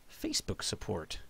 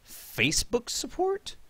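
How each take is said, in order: First: Lower, much softer, flat under-breath repeat; Facebook support., dropped low and murmured to himself; quiet mutter. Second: Higher, slow, rising incredulous query; Facebook support?, pitched up and drawn out; puzzled question. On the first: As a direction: mumble it to yourself. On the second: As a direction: ask it in amused disbelief. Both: Real, not acted. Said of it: "Meg twelve doing Facebook support".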